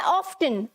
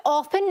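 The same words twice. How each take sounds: First: Often said as OFF-tun, T sounded; often pronounced with an audible T; American-style often with T. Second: Often said as OFF-un, no T sound; often pronounced without its T; often with silent T. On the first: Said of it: "जो Americans हैं". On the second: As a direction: say often like "awfun", the T left silent. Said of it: "वो इसे often नहीं बोलते". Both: Shown as a demonstration.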